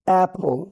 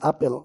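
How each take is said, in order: First: The first vowel is a flat 'ae' sound. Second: The first vowel is an open 'ah' sound. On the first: The speaker calls it right. "এটার প্রকৃত উচ্চারণ হচ্ছে" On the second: The speaker calls it wrong. "বাংলাদেশে আপেল বলে থাকি"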